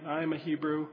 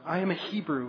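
First: It is said as a plain, flat statement. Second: It is said with strong, declaring conviction. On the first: It is just the right words, without real commitment. The speaker calls it right. "I think he probably just said it like a statement" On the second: It is a proud declaration of faith. The speaker calls it wrong. "I don't think he said it with such conviction"

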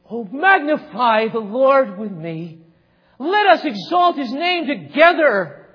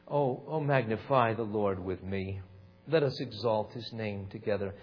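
First: It is said with lively, enthusiastic energy. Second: It is said flatly, with little energy. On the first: The speaker calls it right. "He said" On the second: The speaker calls it wrong. "He didn't say it that way"

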